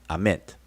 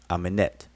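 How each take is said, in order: First: No vowel is heard between the N and T. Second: A vowel is heard between the N and T. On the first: "They won't put an E between the N and the T" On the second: "Amenet is how some scholars pronounce the word for west"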